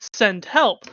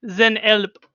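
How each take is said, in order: First: The first word begins with a voiceless s sound. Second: The first word begins with a voiced z sound.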